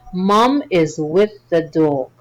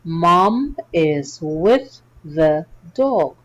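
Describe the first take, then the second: First: It is read at a faster pace. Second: It is read at a normal pace.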